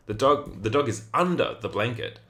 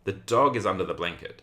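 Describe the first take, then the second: First: "under" punched higher as the contrasting word; stress on UNDER. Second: "dog" emphasized, the rest of the sentence unstressed; stress on DOG. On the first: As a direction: hit "under" hard, as opposed to on or by. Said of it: "the meaning of this means that the dog is under the blanket". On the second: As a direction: lean on "dog" as the key word. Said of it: "I'm sort of emphasizing the dog". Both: Shown as a demonstration.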